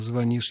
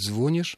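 First: The stress is in the older, standard position. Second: The stress is in the newer, nonstandard position. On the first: The speaker calls it right. "вместо" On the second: The speaker calls it wrong. "нового и считающегося неверным ударения"

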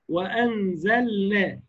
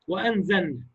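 First: The L sound is pronounced clearly and distinctly. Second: The L sound is merged into the next sound. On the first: The speaker calls it right. "لا" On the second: The speaker calls it wrong. "كتير من الناس تضغم"

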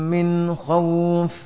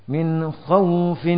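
No difference in how they are said.

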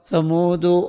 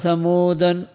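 First: The word ends without any added nunation. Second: The word ends with an added -an nunation. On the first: The name is treated as foreign. "وعدمه" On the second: The name is treated as Arabic. "بالتنوين"

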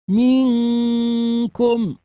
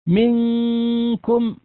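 First: The first vowel is stretched into a long vowel. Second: The first vowel is short before the nasal. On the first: The speaker calls it wrong. "أصبح بعد الميم حرف ياء، وهذا خطأ" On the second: The speaker calls it right. "هذا هو النطق الصحيح"

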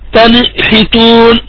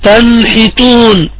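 First: The n gets a small bouncing vowel after it. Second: The n is held still, with no nasal hum. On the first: The speaker calls it wrong. "ولا تقلقل النون، يعني لا تقرأ هكذا" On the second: The speaker calls it right. "فتكون القراءة الصحيحة هكذا"

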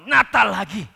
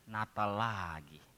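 First: The phrase is said with an excited, delighted tone. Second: The phrase is said with a weary, sighing tone. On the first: Christmas again is a welcome joy. The speaker calls it right. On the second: Christmas again feels like a tiresome burden. The speaker calls it wrong.

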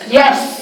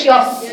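First: The syllable sounds light, with thin plain coloring. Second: The syllable sounds heavy, with thick emphatic coloring. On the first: The speaker calls it right. "هي يس يس" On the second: The speaker calls it wrong. "لا هي مش يس"

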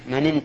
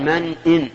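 First: The glottal stop is dropped, linking the two words. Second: The glottal stop before "in" is clearly pronounced. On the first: The speaker calls it wrong. "هذا خطأ، لأنه إذا قال من إن تأمنه جعل الهمزة همزة وصل" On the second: The speaker calls it right. "هنا يجب الإظهار لأن همزة همزة قطع"

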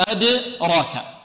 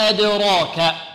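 The two takes are said the same way.

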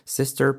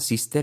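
First: The final r sounds English, not tapped. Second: The final r sounds Spanish, tapped. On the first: The speaker calls it right. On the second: The speaker calls it wrong.

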